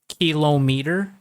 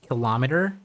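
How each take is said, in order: First: It is said a common non-American way. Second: It is said the common American way. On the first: "some other native speakers would say" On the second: "most Americans would pronounce it"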